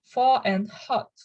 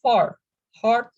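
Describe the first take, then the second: First: "far and hot" with no R after the vowel, like "fah"; non-rhotic, R dropped. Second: "far, hard" with the R clearly sounded; rhotic R. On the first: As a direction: drop the R in "far" and in "hot" (hard). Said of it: "pronounced in a different way". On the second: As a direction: say "far, hard" pronouncing each R after the vowel. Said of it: "we pronounce these words as". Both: Shown as a demonstration.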